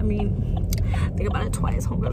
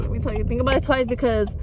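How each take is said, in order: First: Hushed warning whisper. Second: Said in the usual way. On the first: Real, not acted. Warning her baby girls, whispered and voiceless. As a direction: lean in and whisper the advice, voiceless.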